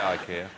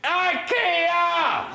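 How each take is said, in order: First: The word is said at normal volume. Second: The word is shouted very loudly.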